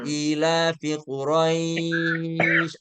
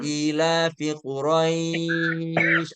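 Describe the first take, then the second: First: The 'ai' in Quraisy is held six counts. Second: The same.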